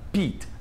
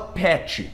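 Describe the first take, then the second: First: The word ends sharply on the consonant. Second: The word ends with an extra vowel sound. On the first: The speaker calls it right. "termina com T" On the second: The speaker calls it wrong. "a gente não fala pet"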